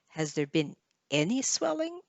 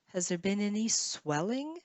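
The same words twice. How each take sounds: First: The stress falls on the word any. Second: The stress falls on the word swelling. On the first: "Maybe you want to emphasize the word any" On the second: "swelling or swell would be the stress last stress syllable"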